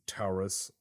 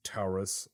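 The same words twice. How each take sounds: First: It is said with a Brazilian Portuguese pronunciation. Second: It is said with a Brazilian Portuguese pronunciation.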